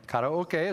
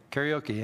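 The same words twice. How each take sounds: First: "Karaoke" said as kah-rah-oh-keh; Japanese-style "Karaoke", open vowels and final "keh"; correct Japanese pronunciation. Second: "Karaoke" said as carry-oh-key; Americanized "Karaoke", ending in a long "kee"; butchered American pronunciation. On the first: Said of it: "is the correct pronunciation". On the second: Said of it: "you've been butchering it". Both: Shown as a demonstration.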